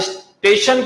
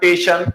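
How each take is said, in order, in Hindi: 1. शब्द s की ध्वनि से शुरू होता है। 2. शब्द सीधे t की ध्वनि से शुरू होता है।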